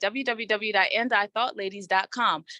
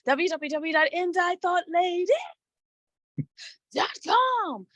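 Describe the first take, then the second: First: It is said in a plain, ordinary voice. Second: It is said in a put-on car-salesman voice.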